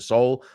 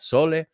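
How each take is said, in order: First: The word ends on an l sound. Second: The word ends with a vowel sound. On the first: The speaker calls it right. "we pronounce it sol" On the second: The speaker calls it wrong. "not sole"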